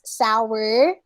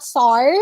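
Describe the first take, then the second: First: Sour said as "sa-wer"; correct pronunciation demo. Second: Sour said as "sar", one syllable; wrong pronunciation demo. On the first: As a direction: say sour with a w glide. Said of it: "it's sour". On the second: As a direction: say sour without its w glide. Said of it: "It's not sour". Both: Shown as a demonstration.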